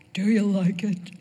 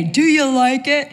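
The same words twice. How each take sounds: First: Said in the usual way. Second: Mock-proud husband, higher and louder. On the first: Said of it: "But yet". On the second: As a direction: puff up like the husband taking credit. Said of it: "on Christmas Day".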